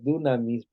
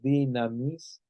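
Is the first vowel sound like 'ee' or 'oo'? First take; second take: oo; ee. First: The first vowel sounds like 'oo'. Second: The first vowel sounds like 'ee'. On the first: The speaker calls it wrong. "aquí dice dunamis" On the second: The speaker calls it right. "pero es dinamis"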